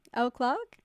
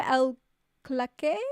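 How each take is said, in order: First: "Clark" as one syllable, questioning; corrected pronunciation. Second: "Claque" said hesitantly as two syllables, klak-ay; botched pronunciation. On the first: Streamer checking a viewer's name, corrected pronunciation. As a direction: try "Clark" with a silent r, checking it. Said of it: "pronounced the same as Clark". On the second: Streamer greeting a viewer by name, botched pronunciation. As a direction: try "Claque" with an uncertain foreign-style ending. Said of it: "The accents today are terrible". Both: Real, not acted.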